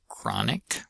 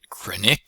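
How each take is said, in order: First: The stress is on the first syllable. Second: The stress is on the second syllable. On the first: The speaker calls it right. "so stress is on the first syllable" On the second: The speaker calls it wrong. "it's not chronic or something like that"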